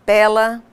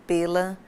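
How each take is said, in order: First: Pela with an open é, said louder. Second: Pela with a closed ê, lower and softer. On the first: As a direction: pela said as pélа, open and stressed. ("pela" com é aberto, forte) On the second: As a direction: pela said as pêla, closed and soft. ("pela" com ê fechado, baixo) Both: Shown as a demonstration. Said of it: "os pares de palavras".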